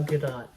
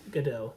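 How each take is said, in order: First: Gadot with the final T sounded; Gadot ending in T. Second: Gadot ending in a long O; Gadot with silent T. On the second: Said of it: "Gal Gadot". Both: Shown as a demonstration.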